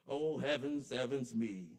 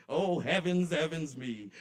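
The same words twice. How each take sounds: First: Said in the usual way. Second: Laughing exclamation. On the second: Acted. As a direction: laugh breaking into a loud, high "oh, heavens". Repeated exclamation, now laughing.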